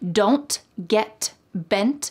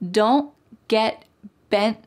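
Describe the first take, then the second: First: The T sounds are clearly released. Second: The T sounds are held and not released. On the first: "it's not wrong to say don't get bent" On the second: "All of these T's are what we call stopped T's"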